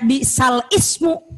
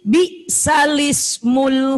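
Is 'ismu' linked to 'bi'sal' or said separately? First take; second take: separate; linked. First: The hamzah is kept, so ismu starts separately. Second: The lam runs straight into ismu without a break. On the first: The speaker calls it wrong. "Bukan dibaca bi'sal ismu" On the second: The speaker calls it right. "tapi bi'salismul fusuqo"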